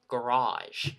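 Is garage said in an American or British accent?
American. It is said with an American accent. "They said garage"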